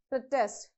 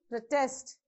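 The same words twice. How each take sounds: First: The stress is on the first syllable. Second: The stress is on the second syllable. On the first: It is used as a noun. "if you want to use that as a noun, you have to stress on the first syllable" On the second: It is used as a verb. "you have to use the force on the second syllable"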